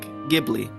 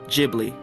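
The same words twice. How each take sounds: First: It begins with a hard G sound. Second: It begins with a soft G sound. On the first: This is the original Italian pronunciation. "actually pronounced with a hard G" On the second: This is the studio's own pronunciation. "the studio pronounces it with a soft G"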